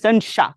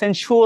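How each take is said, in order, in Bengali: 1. শব্দটি 'sha' দিয়ে শেষ হয়, র-ধ্বনি নেই। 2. শব্দটি 'shor' দিয়ে শেষ হয়, র-ধ্বনি আছে। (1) "এটা হচ্ছে সেনশাহ" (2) "এটা আবার সেনশোর বলো না"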